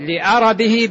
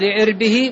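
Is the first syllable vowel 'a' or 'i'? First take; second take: a; i. First: The hamza and the ra both take an 'a' vowel. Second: The hamza takes 'i' and the ra has no vowel. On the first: "بفتح الهمزة والراء" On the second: "أو بكسر الهمزة وإسكان الراء"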